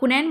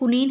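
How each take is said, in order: First: The second vowel sounds like 'ai'. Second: The second vowel sounds like 'ee'. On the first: The speaker calls it wrong. "कुनैन बोलते हैं लोग, लेकिन ये गलत है" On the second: The speaker calls it right. "कुनीन है"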